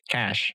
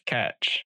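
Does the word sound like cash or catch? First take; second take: cash; catch. First: The word ends in a plain sh sound. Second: The word ends in a ch sound. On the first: "I've always pronounced it as cash" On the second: "He specifically said catch"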